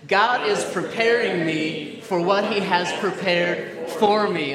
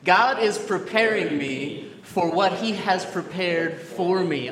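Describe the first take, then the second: First: It is said loudly with great energy. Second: It is said in a calm, ordinary voice.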